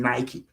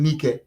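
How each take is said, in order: First: "Nike" said as NY-kee; brand pronunciation. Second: "Nike" said as NEE-keh; local pronunciation. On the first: Pitching shoes to the company, Nike as NY-kee. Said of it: "It's pronounced Nike, not Nike". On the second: Correcting to the village name, Nike as NEE-keh. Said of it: "It's pronounced Nike". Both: Retold or imitated.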